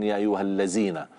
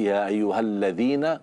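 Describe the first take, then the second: First: The tongue stays inside, giving a 'z' sound. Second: The tongue tip comes out, giving a 'th' sound. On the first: The speaker calls it wrong. "tidak boleh ya ayyuhallazina" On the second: The speaker calls it right. "Kalau alladzina ujung lidah keluar"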